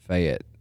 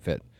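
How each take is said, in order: First: The name is drawn out over two full syllables. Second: The name is clipped to one short syllable. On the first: "I just enunciated it so long" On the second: "you're just like Fett"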